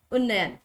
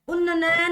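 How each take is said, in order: First: Said in the usual way. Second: उन्नयन with an extra syllable, un-na-na-yan; rejected pronunciation. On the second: Shown as a demonstration. Teacher rejects a wrong spelling, extra-syllable उन्नयन. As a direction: add a spare "na" inside उन्नयन. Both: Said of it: "उन्नयन नहीं".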